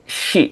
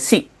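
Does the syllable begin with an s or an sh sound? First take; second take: sh; s. First: It begins with an sh sound, lips pushed forward. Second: It begins with a plain s sound. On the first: The speaker calls it right. "Memang dia ini shi gitu" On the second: The speaker calls it wrong. "Jangan sampai si"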